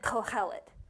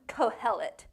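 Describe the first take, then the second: First: The h sound is harsh and scraped in the throat. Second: The h sound is soft and plain.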